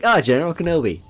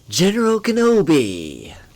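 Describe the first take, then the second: First: It is said casually, without excitement. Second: It is said dramatically, like an exclamation.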